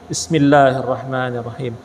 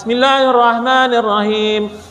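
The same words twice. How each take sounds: First: It is recited quietly in a low voice. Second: It is recited aloud in a full voice. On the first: It follows the view that the basmalah is recited quietly. "maka dia bacanya seperti ini" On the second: It follows the view that the basmalah is recited aloud. "pasti dia jaharkan"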